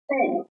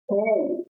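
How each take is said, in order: First: The vowel is short and clipped. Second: The vowel is held long and extended. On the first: "earlier one was poo" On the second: "it is U and an overline above U"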